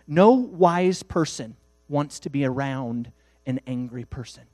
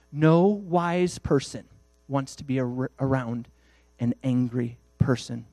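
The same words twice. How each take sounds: First: Said in the usual way. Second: No wise person drawn out very slowly, each word weighted; slow right down and lean on No wise person; slow emphatic repeat. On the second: Shown as a demonstration. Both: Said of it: "preacher repeats the line".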